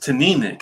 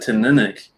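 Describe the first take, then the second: First: The stress is on the second syllable. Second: The stress is not on the second syllable. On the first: The speaker calls it right. "It's the emphasis on that second syllable" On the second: The speaker calls it wrong. "I always called it Tininic"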